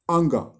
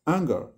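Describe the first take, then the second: First: The word is said with heavy force. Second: The word is said calmly without force. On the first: The speaker calls it wrong. "he says it with such unnecessary forcefulness" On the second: The speaker calls it right. "if he had said anger, he could have gotten it"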